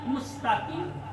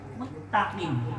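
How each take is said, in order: First: An 's' sound comes before the 't'. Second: The 's' is gone and 't' is doubled. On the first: The speaker calls it right. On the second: The speaker calls it wrong.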